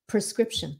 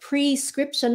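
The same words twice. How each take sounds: First: The first syllable is quick and reduced, like 'pra'. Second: The first syllable is said fully, like 'pree'. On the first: The speaker calls it right. "because we say it quickly, it sounds like pra" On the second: The speaker calls it wrong. "nếu mà mình nói quá rõ là prescription là nó thành wrong"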